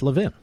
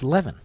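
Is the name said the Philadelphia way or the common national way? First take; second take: Philadelphia; national. First: The name is said the Philadelphia way. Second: The name is said the common national way. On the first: This is how the name is said locally. "in Philadelphia, at least where I grew up, L-E-V-I-N is pronounced Levin" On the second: This is how most of the country says the name. "Much of the rest of the country, it's pronounced Levin"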